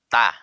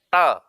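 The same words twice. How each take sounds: First: The t is made with the tongue pushed out. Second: The t is made with the tongue held back. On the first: "ada orang membaca ta mengeluarkan lidahnya" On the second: "Ada orang membaca ta dalam lidahnya"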